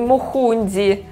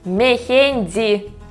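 First: The first two vowels sound like 'u'. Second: The first two vowels sound like 'e'. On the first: The speaker calls it wrong. "а не мухунди" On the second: The speaker calls it right. "Мехенди, а не мухунди"

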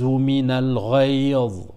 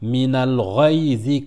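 First: It stops with no final vowel sounded. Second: The final i-vowel is sounded, running on. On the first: The reciter pauses at this point. "comme on s'arrête, on ne prononce pas la kasra" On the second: The reciter continues without pausing. "si on veut continuer, on dira"

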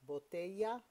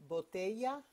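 No difference in how they are said.

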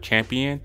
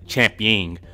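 First: The word ends with an '-ion' sound. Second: The word ends with an '-ing' sound. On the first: The speaker calls it right. "pronounces the word champion" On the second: The speaker calls it wrong. "as champying, so it can rhyme with the word ring"

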